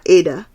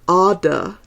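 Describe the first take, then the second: First: It is said not rhyming with 'ardor'. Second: It is said rhyming with 'ardor'. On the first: The speaker calls it wrong. "not Ada, as it looks" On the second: The speaker calls it right. "You rhyme it with ardor"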